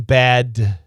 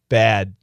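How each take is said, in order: First: The final D is fully released. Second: The final D is stopped, not released. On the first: "Perfect pronunciation" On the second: "We say bad"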